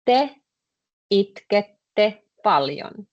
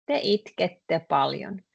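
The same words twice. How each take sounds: First: Slow, "itkette" stretched out; slow demo. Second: Said in the usual way. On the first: Shown as a demonstration. Teacher modelling the sentence slowly for students. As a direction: say "Te itkette paljon" slowly, spelling out every syllable. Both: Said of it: "then you just tell me the sentence".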